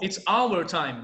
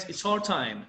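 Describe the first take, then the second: First: "our" in full, two syllables, "ow-er"; careful textbook "our", rhyming with "power"; full pronunciation. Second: "our" contracted to sound like "are"; everyday spoken "our", reduced to "are"; contracted spoken form. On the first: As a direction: slowly sound out "our" as "ow-er". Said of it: "Mas no inglês, no spoken English". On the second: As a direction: say "our" as one syllable, "are". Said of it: "seria mais". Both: Shown as a demonstration.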